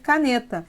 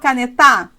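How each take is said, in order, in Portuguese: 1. A tonicidade está na sílaba do meio. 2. A tonicidade está na última sílaba. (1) "então sobrou ser caneta" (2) "Você força as três sílabas possíveis. Eu falo canetar? Não"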